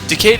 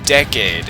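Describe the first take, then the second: First: It sounds like the word decayed. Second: It sounds like the ordinary word decade. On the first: It evokes things breaking and falling apart. "is pronounced like decayed" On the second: It refers to a ten-year span. "as in this was a ten year anniversary"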